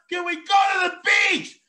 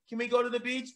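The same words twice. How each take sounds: First: It is said loudly, almost shouted. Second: It is said at a normal volume.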